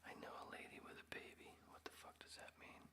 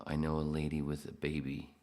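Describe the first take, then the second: First: Fast, breathless whisper. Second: Said in the usual way. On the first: Real, not acted. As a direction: hush it out quickly. Rereading comment in whisper.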